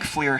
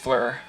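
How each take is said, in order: First: The vowel sounds like 'ear'. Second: The vowel sounds like 'er'. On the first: The speaker calls it wrong. "I just think FLIR sounds cuter, but it's totally wrong" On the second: The speaker calls it right. "It is it is fleur. That's right. Because er is infrared, it isn't ear"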